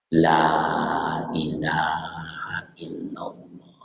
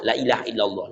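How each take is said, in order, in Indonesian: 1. Frasa ini dibisikkan pelan dan perlahan. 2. Frasa ini diucapkan dengan tergesa-gesa dan cemas. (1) "Bisikkan di telinganya lembut dan lambat. Lembut, lambat" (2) "Jangan pula awak yang cemas"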